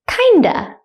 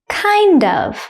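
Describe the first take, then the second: First: Of is reduced to a schwa sound. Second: The word of is pronounced in full.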